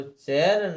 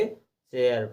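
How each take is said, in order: First: चेयर said as one syllable "cher"; wrong reading. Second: चेयर said "che-yar", ending in eyar; correct reading. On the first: Teacher contrasts the reading to avoid, चेयर said "cher". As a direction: run चेयर together as "cher", without the "yar". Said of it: "चेयर ना पढ़ के". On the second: Teacher shows the reading chosen, चेयर said "che-yar". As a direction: open चेयर into two syllables, "che-yar". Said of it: "चेयर पढ़ा". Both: Shown as a demonstration.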